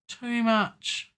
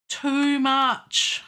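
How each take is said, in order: First: Said in the usual way. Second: Too much, higher and louder, with the stress on too; exclaimed. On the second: Real, not acted. Musician scolding his own edit, louder. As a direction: blurt out too much at the mistake. Repeats correction to himself.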